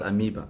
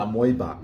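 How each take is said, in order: First: "amoeba" said as a-MEE-ba; correct pronunciation. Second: "amoeba" said as a-MOY-ba; home pronunciation. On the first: Teaching the English word, amoeba as a-MEE-ba. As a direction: say "amoeba" with a clear long ee. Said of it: "that's how it's pronounced". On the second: Recalling Cameroon days, amoeba as a-MOY-ba. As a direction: give "amoeba" an oy in the middle. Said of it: "we call her amoeba". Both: Shown as a demonstration.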